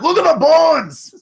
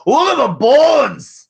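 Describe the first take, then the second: First: Put-on high, loud Scottish accent shout. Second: Put-on loud, high Scottish accent. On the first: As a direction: belt it out in a Scottish brogue. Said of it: "Every time". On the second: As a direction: shout it in a hammy Scottish brogue. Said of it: "in her best Scottish accent goes".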